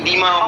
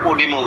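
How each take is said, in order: First: The word begins with an 'ee' sound. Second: The word begins with an 'o' sound. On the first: "ইডিমা উচ্চারণ হয়" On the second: "আবার ওডিমা উচ্চারণ হয়"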